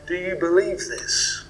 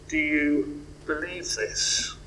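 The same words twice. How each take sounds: First: Said in the usual way. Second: Softer and slower, asked gently to the listeners; soft, slow question. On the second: Shown as a demonstration. Preacher softly asks the congregation: do you believe this. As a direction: let the question sink in quietly. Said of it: "there's the question, I guess, for us all".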